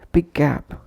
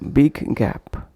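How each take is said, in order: First: The two g sounds merge into one. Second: Each g sound is released separately. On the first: The speaker calls it right. "pronounced as big gap" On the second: The speaker calls it wrong. "instead of big gap"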